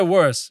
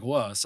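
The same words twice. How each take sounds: First: Said in the usual way. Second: Put-on "Worse" in the other speaker's accent, the R dropped; imitated accent on "Worse". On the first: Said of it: "even when you said worse". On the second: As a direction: mimic an R-less accent on "Worse", lower and softer. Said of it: "you're like".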